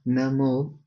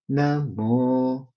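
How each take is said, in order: First: The syllable mo is on a middle pitch. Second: The syllable mo is on a low pitch. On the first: "So that is middle" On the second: "the intonation is going low"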